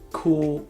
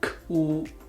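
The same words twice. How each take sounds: First: The syllable is said at normal speed. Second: The syllable is said slowly and drawn out.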